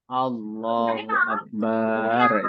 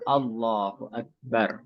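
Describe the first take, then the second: First: The 'ba' vowel in Akbar is drawn out long. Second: The 'ba' vowel in Akbar is kept short. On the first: The speaker calls it wrong. "memanjangkan ba. ... itu tidak benar" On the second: The speaker calls it right. "Yang benar adalah"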